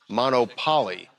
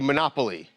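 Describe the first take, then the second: First: It is said as two parts, mono and poly. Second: It is said like the board game's name. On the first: It names a monogamous-polygamous relationship. The speaker calls it right. "It's Monopoly" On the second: It names the board game. The speaker calls it wrong. "I think I'm pronouncing that wrong"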